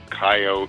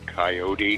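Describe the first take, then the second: First: It has a Midwestern or Western US pronunciation. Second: It has an Eastern US pronunciation. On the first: The speaker is from the Midwest or West. "Guys from the kind of the Midwest or West will say" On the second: The speaker is from the East. "Guys from back east say coyote"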